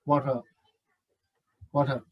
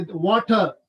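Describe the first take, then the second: First: WATER low and soft, T played down; flat T. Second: WATER with a clear T; British pronunciation. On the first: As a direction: say "water" softly with little weight on the T. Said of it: "Flat T sound". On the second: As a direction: say "water" as British "waw-tuh", T released. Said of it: "British people say water". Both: Shown as a demonstration.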